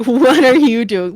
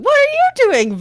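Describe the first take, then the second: First: Said in the usual way. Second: Same question jumping higher in pitch; higher incredulous echo. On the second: Retold or imitated. Storyteller quoting the meme, the repeat pitched higher. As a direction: pop the repeat up high in disbelief.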